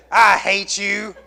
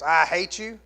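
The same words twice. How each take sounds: First: Put-on slow, loud bratty child voice; child's tantrum. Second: Said in the usual way. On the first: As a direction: spit it out like a sulking kid. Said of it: "You ever had your child say". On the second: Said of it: "Did you ever tell your parents".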